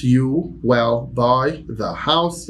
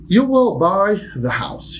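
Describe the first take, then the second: First: Slow, level repeat; slow plain repetition. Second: Slow, high, "will" stressed; slow model sentence. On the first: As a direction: say it again slowly. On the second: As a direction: dictate slowly to the class. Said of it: "teacher demo". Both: Shown as a demonstration.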